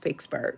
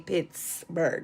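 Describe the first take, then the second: First: The first syllable sounds like 'picks'. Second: The first syllable sounds like 'pits'. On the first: This is how locals say the name. "We say Pix, P I C or P I X" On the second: This is how outsiders say the name. "We don't say Pittsburgh"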